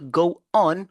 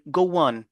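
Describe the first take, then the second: First: The two words are said separately, unlinked. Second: The two words are linked with a gliding sound. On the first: The speaker calls it wrong. "Au lieu de dire go on" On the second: The speaker calls it right. "on va dire go on"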